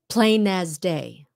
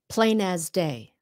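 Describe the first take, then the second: First: The words run together smoothly as one phrase. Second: The words run together smoothly as one phrase.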